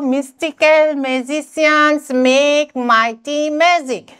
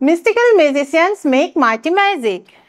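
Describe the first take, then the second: First: The sentence is said slowly and carefully. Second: The sentence is said quickly and stumbles. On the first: "ami lahe lahe pohile problem nai" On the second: "ami jotia first pohibo ja tetia ki hobo amar tongue twist koribo"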